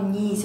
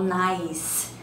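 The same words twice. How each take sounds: First: The vowel is a plain 'ee' sound. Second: The vowel is an 'eye' sound. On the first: The speaker calls it wrong. "eu não falo nice" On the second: The speaker calls it right. "eu falo nice. Então eu vou lá e coloco que o i é som de ai"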